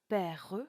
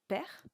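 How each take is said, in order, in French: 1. Le E final se prononce et forme une syllabe de plus. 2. Le E final est muet, il ne donne qu'une seule syllabe. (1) "on ne dira pas" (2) "mais bien père, qui ne donnera qu'une seule syllabe"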